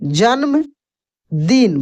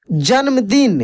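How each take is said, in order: First: जन्मदिन stretched very slowly, syllable by syllable; teacher lingering over जन्मदिन for dictation; drawn out slowly. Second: Said in the usual way. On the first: Shown as a demonstration. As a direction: stretch जन्मदिन out so students catch each sound. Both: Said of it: "teacher repeats the word for learners".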